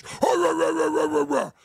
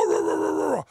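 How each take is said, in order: First: Lightly voiced blustering rant of "rah"; a mild mock bluster of nonsense syllables; Howard Stern's impression. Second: Higher, put-on rant of "rah"; a lofty mock bluster, pitched up; Stephen Fry's impression. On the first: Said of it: "Howard Stern goes". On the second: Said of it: "he goes".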